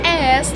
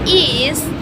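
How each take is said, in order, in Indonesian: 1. Akhirannya adalah bunyi s tak bersuara. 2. Akhirannya adalah suku kata tambahan iz. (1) "like cats" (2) "like buses"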